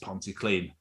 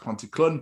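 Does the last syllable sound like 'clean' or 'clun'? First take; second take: clean; clun. First: The last syllable has a long 'ee' vowel. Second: The last syllable has a short 'uh' vowel. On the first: The speaker calls it right. "It's Pontyclean" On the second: The speaker calls it wrong. "I thought it was pronounced Pontyclun, but no, I'm an idiot"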